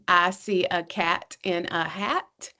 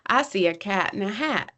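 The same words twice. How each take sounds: First: It is read word by word, choppily. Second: It is read smoothly as one phrase.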